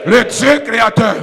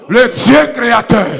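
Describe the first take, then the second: No difference in how they are said.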